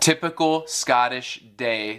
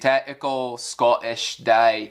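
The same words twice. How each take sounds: First: The middle consonants are clearly pronounced. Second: The middle consonants are dropped.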